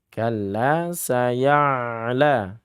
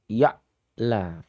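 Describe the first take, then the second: First: The ain flows smoothly without a stop. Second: The ain is cut off with an abrupt stop. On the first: The speaker calls it right. "Bedakan dengan ain" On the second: The speaker calls it wrong. "ini enggak boleh ya"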